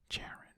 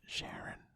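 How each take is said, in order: First: The name begins with a hard ch sound. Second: The name begins with a soft sh sound. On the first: "Not Sh Sh, but Ch" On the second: "Is it Sharon?"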